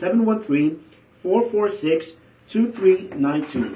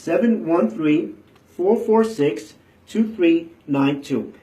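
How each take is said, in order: First: The number is said at normal speed. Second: The number is said slowly.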